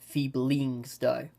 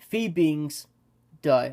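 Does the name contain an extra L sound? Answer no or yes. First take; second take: yes; no. First: The name is said with an added L sound. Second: The name is said without an L sound.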